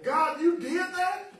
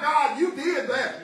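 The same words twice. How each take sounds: First: It is said in amazed disbelief. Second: It is said flatly, as plain fact.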